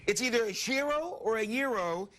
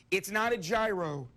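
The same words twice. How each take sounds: First: Gyro said YEE-ro and then ZHEE-ro; right pronunciation. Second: Gyro as JYE-ro, like a gyroscope; wrong pronunciation. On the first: Host insisting to his co-host: gyro as YEE-ro or ZHEE-ro. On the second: Host mocking the common error: gyro as JYE-ro. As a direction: say gyro with a hard J and long eye. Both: Shown as a demonstration.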